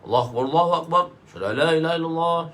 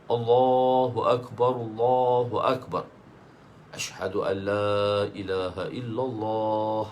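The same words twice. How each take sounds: First: It is said quickly with phrases joined together. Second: It is said slowly, drawn out and separated.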